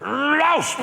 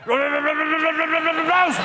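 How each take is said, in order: First: The bark is said smoothly, in one go. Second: The bark is said with a stammer.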